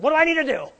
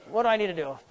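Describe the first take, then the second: First: High, strained cry of frustration; mock exasperation. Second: Said in the usual way. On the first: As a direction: plead it high like a fed-up hunter. Mock exasperated hunter, first take.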